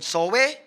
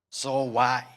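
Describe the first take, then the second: First: The word ends in an ee sound. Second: The word ends in an eye sound. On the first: The speaker calls it wrong. "hindi pala" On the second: The speaker calls it right. "ang pronunciation niyan is zoai"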